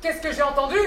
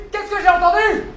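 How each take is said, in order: First: Softer, ominous first question; restrained indignation. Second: Higher, more forceful repeat; indignant demand. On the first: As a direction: ask it with menace held back. (indignation contenue, menaçante) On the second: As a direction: demand it, voice climbing in outrage. (question indignée qui monte) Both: Acted. Patron indigné, question répétée plus fort.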